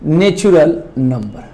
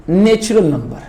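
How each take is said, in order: First: natural number said slowly and deliberately for writing; slow dictation. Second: Said in the usual way. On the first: Shown as a demonstration. (Natural number धीरे-धीरे लिखवाते हुए) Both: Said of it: "अब बात करते हैं".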